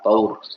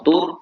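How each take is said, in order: First: The vowel is an aw diphthong. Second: The vowel is a long u sound. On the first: It means a state or stage. The speaker calls it right. "tapi dibaca fathah" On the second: It means a mountain. The speaker calls it wrong. "Jangan dibaca dhammah ya"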